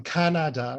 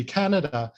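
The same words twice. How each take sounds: First: Canada with every syllable stressed; stress on all syllables. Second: Said in the usual way. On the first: Shown as a demonstration. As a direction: give each syllable of Canada equal, full stress. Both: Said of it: "I stressed all syllables".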